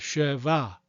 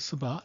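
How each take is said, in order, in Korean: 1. 이 이름은 sh 소리로 시작합니다. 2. 이 이름은 평범한 s 소리로 시작합니다. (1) "쉐바로 읽는 게 맞아요" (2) "어떻게 스바가 맞아요?"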